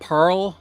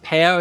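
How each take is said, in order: First: The first syllable sounds like the word pearl. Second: The first syllable sounds like the fruit pear. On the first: "like a pearl in an oyster" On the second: "in the fruit line"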